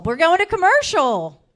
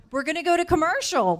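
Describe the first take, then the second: First: Much louder, higher repeat of the call; shouted announcement of the break; full shout. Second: Higher and louder call to the room; host's raised call to commercial. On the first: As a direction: belt it out so the whole room hears. Host calling the break again. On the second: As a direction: announce the break over the noise. Host calling the break. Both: Real, not acted.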